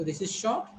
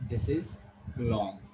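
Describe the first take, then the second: First: "short" said briefly; teacher's contrast, "short" left unstretched. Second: "long" slow and stretched, lower; teacher's contrast, "long" held slowly. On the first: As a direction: keep "short" quick after "this is". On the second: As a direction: draw out the word "long". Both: Shown as a demonstration.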